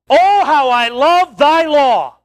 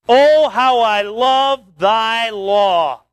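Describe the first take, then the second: First: It is read with strong exclamatory emphasis. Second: It is read plainly, without exclamatory force.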